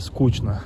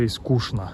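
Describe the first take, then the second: First: The middle consonant is a 'ch' sound. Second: The middle consonant is an 'sh' sound. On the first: This is the Saint Petersburg way of saying it. "It would be скучно" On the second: This is the Moscow way of saying it. "in Moscow they say скучно"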